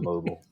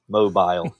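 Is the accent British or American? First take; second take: American; British. First: It is said with an American accent. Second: It is said with an English Scouse accent.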